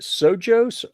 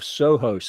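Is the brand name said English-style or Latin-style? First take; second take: English-style; Latin-style. First: The name is said with an English pronunciation. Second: The name is said with a Latin pronunciation.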